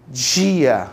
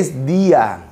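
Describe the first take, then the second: First: The d is pronounced like a dj sound. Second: The d is pronounced as a plain d. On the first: "que os cariocas chiam" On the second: "não existe esse fonema em espanhol"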